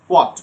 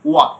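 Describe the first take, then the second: First: It starts with a breathy h sound. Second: It starts directly with w, no h. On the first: "American বলবে" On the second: "British সাউন্ডে ... হটা উচ্চারণ হবে না"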